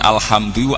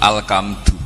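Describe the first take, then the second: First: The consonant after 'al' is an h sound. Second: The consonant after 'al' is a k sound. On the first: The speaker calls it right. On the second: The speaker calls it wrong.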